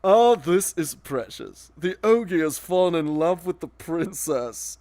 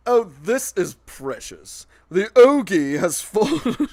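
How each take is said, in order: First: "Oh, this is precious", slow and sneering, holding back a laugh; straight-faced mock. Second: Breaking up laughing. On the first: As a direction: keep a straight face and sneer. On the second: Real, not acted. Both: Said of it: "I can say it with a straight face".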